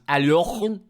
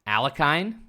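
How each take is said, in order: First: The middle consonant is a rasping throat sound. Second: The middle consonant is a plain hard k. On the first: This is the original pronunciation, which confuses listeners. "pronounce it properly, where your throat just becomes" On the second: This is the familiar version most people use. "You could say"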